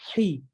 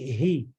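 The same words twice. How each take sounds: First: The syllable is light and thin. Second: The syllable is heavy and thick. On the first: The speaker calls it wrong. "bukan hi" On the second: The speaker calls it right. "kasih tebal"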